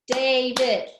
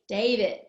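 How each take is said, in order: First: DAVID in two loud, level beats; syllable by syllable. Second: Said in the usual way. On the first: Shown as a demonstration. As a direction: punch out DA and VID in DAVID. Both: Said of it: "He has two syllables".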